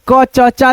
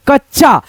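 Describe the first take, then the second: First: क च चा as three syllables, a full vowel on the middle च; wrong unjoined reading. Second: कच्चा blended into two syllables, kach-chaa; no vowel on the half च in कच्चा; correct half-letter reading. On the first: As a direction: sound out क, च, चा separately. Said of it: "आधा च में अ का आ जा रहा है". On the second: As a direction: join it up as कच्चा with a doubled ch. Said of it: "लेकिन हम ऐसे पढ़ेंगे". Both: Shown as a demonstration.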